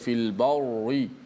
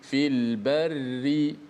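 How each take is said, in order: First: The r sound is thick and heavy. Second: The r sound is thin and light. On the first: The speaker calls it wrong. "tidak boleh baca" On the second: The speaker calls it right. "kita baca dengan ri"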